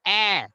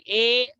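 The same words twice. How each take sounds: First: "a" as a short open A, as in "ass"; correct vowel. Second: "a" said as the letter name, AY; wrong vowel. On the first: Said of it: "it's a". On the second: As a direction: say "a" to rhyme with "day". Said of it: "it's not a". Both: Shown as a demonstration.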